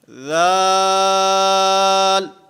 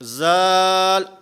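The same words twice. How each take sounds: First: The th-sound flows directly into the vowel. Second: The th-sound is added after the syllable. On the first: The speaker calls it right. "हुरूफ की अदायगी के साथ ही ज़ुबान ने दांतों के साथ टकराना है" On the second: The speaker calls it wrong. "आखिर में ज़ुबान बाहर निकाल लेते हैं"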